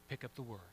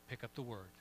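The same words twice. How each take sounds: The two takes are said the same way.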